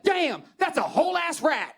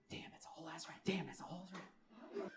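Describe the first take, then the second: First: Loud, high-pitched astonished holler; imitated stunned passer-by; amazed shout. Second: Hushed, whispered replay to yourself; whispered remembering. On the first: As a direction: shout it across the street in amazement. Passer-by shouts at seeing rat. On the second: Acted. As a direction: whisper it over and over, savoring it. Replaying her words to himself.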